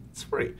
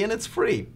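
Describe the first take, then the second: First: A much softer repeat of It's free; softer aside repeating It's free; quiet echo. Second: Said in the usual way. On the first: Shown as a demonstration.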